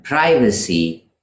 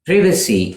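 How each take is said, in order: First: "privacy" as PRY-vuh-see; long I in "privacy"; American "privacy", opening like "pry"; American pronunciation. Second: "Privacy" as PRIV-uh-see; short I in "Privacy"; British "Privacy", opening like privilege; British pronunciation. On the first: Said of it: "is American". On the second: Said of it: "is the British pronunciation". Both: Shown as a demonstration.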